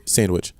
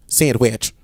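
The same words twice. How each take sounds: First: Said in the usual way. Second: "Sandwich" drawled as say-and-wee-atch; mocking pronunciation. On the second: Host mimicking co-host, "Sandwich" drawled in separated syllables. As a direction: split and stretch "Sandwich". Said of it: "really point out the two syllables".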